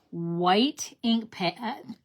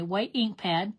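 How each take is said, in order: First: Slow, with ink stressed; slow emphasis. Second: Said in the usual way. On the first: Shown as a demonstration. Crafter naming her supply for viewers, slow emphasis.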